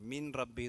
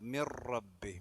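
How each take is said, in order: First: The n is sounded clearly before r. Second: The n merges into the following r. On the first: The speaker calls it wrong. "മിൻ റബ്ബി എന്ന് ഓതാൻ പാടില്ല" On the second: The speaker calls it right. "മി എന്ന് കഴിഞ്ഞ പിന്നെ റാമക്കാണ് ചാടേണ്ടത്"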